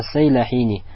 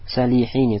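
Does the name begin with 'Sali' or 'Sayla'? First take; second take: Sayla; Sali. First: The name begins with the sounds 'Sayla'. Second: The name begins with the sounds 'Sali'. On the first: The speaker calls it right. "Правильно, ас-Сайляхини" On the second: The speaker calls it wrong. "здесь написано что? Салихини, так? Это ошибка"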